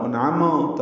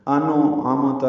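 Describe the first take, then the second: First: انعمت with a bounced, echoing نون and میم; the wrong way, with a bounce on the نون and the میم; wrong qalqala. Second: انو عمت with the نون popped open into an extra vowel; mock qalqala. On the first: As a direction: demonstrate the mistake: انعمت with qalqala. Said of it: "انعمت یہ غلط ہے". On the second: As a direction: exaggerate the bounce as انو عمت. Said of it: "یعنی قلقلہ نہ ہو". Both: Shown as a demonstration.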